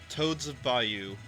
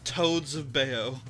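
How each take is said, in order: First: The last word is said like the place name. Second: The last word is not said like the place name. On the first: The speaker calls it right. "Ah, fantastic" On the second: The speaker calls it wrong. "I'm saying that wrong, one hundred percent"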